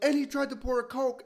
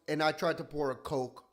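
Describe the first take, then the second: First: It is said louder, repeating the man. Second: It is said at a normal volume.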